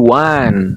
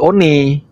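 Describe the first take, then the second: First: It is pronounced like 'wan', the English way. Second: It is read the way it is spelled. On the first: The speaker calls it right. "maka bacalah dengan intonasi berbahasa Inggris" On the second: The speaker calls it wrong. "Itu sa- bacaan yang salah"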